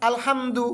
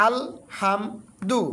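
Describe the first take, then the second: First: "আলহামদু" as one unbroken word, higher pitch; said straight through. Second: "আল হাম দু" in three pieces with pauses between; broken into syllables. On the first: Teacher showing the direct reading, joined-up higher "আলহামদু". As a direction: run "আলহামদু" together without a pause. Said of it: "সরাসরি উচ্চারণ দিই". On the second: Teacher repeating for learners, broken-up "আল হাম দু". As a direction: separate "আল", "হাম" and "দু", pausing after each. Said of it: "আমি কিন্তু ভেঙে ভেঙে উচ্চারণ করলাম". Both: Shown as a demonstration.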